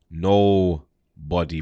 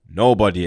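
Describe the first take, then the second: First: "nobody" stretched out slowly and low; slow, emphatic "nobody"; stress on nobody. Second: Said in the usual way. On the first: Real, not acted. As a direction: draw out each part of "nobody". Repeats the word for emphasis.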